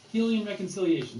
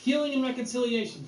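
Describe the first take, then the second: First: Said in the usual way. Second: Healing punched up high, mock-quoting; raised, sarcastic stress on Healing; mock emphasis on healing. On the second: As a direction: lean hard on Healing to mock the line. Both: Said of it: "that's his emphasis".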